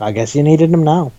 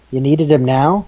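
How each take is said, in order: First: Falling tune on "I guess you needed him now.", stress on needed; wry, resigned self-answer. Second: Rising tune on "You needed him now?", him lifted; mock disbelief, rising at the end; incredulous question. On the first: Retold or imitated. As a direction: shrug it off, settling down. Resigned answer to own question. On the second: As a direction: ask it as if you can't believe it. Rising question then resigned answer.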